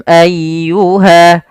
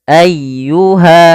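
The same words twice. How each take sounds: No difference in how they are said.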